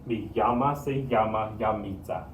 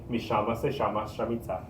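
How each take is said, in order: First: The double L is said as a y sound. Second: The double L is said as an sh sound. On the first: "the double L makes the y sound" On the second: "Kind of over exaggerating that"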